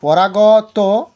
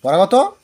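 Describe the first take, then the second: First: পরাগত drawn out very slowly and louder, each syllable held; teacher dictating পরাগত slowly and firmly; slow teacher emphasis. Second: Said in the usual way. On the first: Shown as a demonstration. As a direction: stretch পরাগত out slowly for the class. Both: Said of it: "এই তর্কাতর্কি হচ্ছে গিয়ে".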